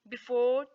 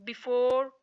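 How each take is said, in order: The two takes are said the same way.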